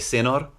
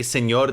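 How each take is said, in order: First: The middle consonant is a plain n. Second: The middle consonant is an ny sound. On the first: The speaker calls it wrong. "they say senor" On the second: The speaker calls it right. "they don't say señor"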